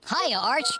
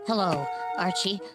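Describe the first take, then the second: First: The greeting sounds too cheerful. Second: The greeting sounds too depressed.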